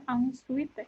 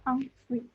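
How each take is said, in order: First: "ensuite" with final E sounded, "ahn-su-ee-teh"; wrong spelled-out reading. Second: "ensuite" as "ahn-swit"; French-style "ensuite", no vowel after the T; correct French reading. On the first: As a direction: misread "ensuite" letter by letter. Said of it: "Jadi kita bukan bacanya". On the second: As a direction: say "ensuite" with UI as one "wi". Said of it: "kita bacanya jadi wi". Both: Shown as a demonstration.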